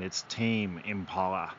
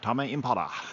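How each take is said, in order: First: The name is said with ordinary English pronunciation. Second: The name is said with Japanese-style vowel sounds. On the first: The speaker calls it right. "until my friend [name] told me, [name], it's Tame Impala" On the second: The speaker calls it wrong. "you just automatically say them and in Japanese pronunciation"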